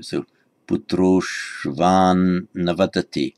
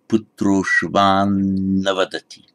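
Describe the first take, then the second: First: Putroshvan navadati, slow, putroshvan with a long joined n; careful sandhi reading. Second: Putroshvan navadati said slowly, the n held long; corrected sandhi reading. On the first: Teacher reading the sentence with sandhi. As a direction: join putroshvan and navadati slowly. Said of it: "Sandhi here". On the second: Teacher re-reading the corrected sentence. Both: Shown as a demonstration.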